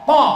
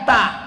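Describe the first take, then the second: First: The t is heavy and emphatic. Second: The t is light and plain. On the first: The speaker calls it right. "Ta, bukan ta" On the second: The speaker calls it wrong. "bukan ta"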